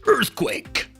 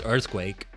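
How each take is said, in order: First: It is shouted in a Juggernaut-style voice. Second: It is said in his normal voice.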